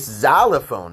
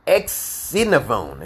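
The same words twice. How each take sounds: First: The word begins with a Z sound. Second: The word begins with a KS sound. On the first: The speaker calls it right. "It's a Z sound" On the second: The speaker calls it wrong. "is not Xylophone"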